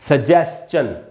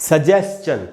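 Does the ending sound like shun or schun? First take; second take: schun; schun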